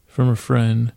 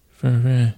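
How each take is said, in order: First: Said in the usual way. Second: "friend" mumbled, its ending swallowed. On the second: Acted. Bear passing on thanks, "from a friend" mumbled. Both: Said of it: "I don't know if that was understandable".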